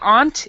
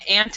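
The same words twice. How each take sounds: First: It is said with a British vowel. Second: It is said with an American vowel. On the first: "is British English" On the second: "is American English"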